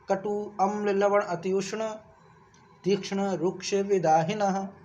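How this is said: The words are separated with breaks between them. "तोड़ तोड़ के तो ऐसे"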